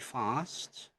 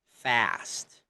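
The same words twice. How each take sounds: First: The vowel is a long broad 'ah'. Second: The vowel is a flat front 'a'. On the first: "So in British, it's going to be" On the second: "In American"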